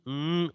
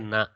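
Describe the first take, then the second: First: The consonant is said bare, with no vowel. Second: The consonant is followed by a vowel sound. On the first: The speaker calls it right. "n only" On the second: The speaker calls it wrong. "not a na"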